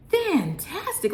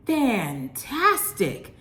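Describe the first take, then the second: First: Much higher, rising Fantastic; thrilled, pitch soaring on Fantastic; squealing delight. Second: Slow, drawn-out, falling fantastic; savoring delight. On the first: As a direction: squeal Fantastic up high with a lift at the end. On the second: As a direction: stretch fantastic long and let it drop down. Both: Real, not acted. Raves about pizza taste.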